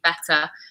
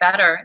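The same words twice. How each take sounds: First: The middle t is a crisp, clear t. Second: The middle t sounds like a soft d. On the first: "In English, it would be better" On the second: "That's an American accent"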